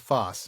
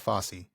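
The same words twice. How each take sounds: First: It is not said like the choreographer's name. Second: It is said like the choreographer's name. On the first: It names the long trench. The speaker calls it right. "so this is a Fosse" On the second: It names the jazz choreographer. The speaker calls it wrong. "not a Fosse. It's not like Bob Fosse"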